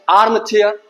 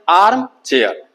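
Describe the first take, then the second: First: Said in the usual way. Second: arm, pause, chair; a clear gap between arm and chair; split into two syllables. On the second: Shown as a demonstration. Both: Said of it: "ये भी डाई syllable है".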